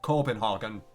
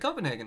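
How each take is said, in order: First: It is said with an exaggerated foreign-style pronunciation. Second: It is said with the ordinary American pronunciation. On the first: The speaker is showing off a special pronunciation. The speaker calls it wrong. "It was like Copenhagen, like super" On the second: The speaker just says the usual name. The speaker calls it right. "that's how Americans pronounce the city"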